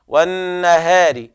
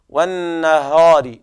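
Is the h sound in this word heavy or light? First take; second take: light; heavy. First: The h sound is light and thin. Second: The h sound is heavy and thick. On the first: The speaker calls it right. "والهاء دائما مرققة" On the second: The speaker calls it wrong. "لا تقل أيها القارئ"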